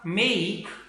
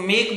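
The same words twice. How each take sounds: First: The vowel glides from 'e' toward 'ee'. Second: The vowel is a pure, steady 'e'. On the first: The speaker calls it right. "सही ये है" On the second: The speaker calls it wrong. "मेक गलत है"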